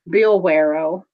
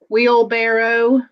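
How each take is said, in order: First: The word begins with a b sound. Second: The word begins with a w sound. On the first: The speaker calls it wrong. "I would say Billwarrow" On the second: The speaker calls it right. "I couldn't pronounce wheelbarrow very well"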